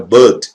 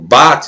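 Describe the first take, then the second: First: The vowel is a closed, darker sound. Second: The vowel is an open a sound. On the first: "como an, um som fechado" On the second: "não A aberto"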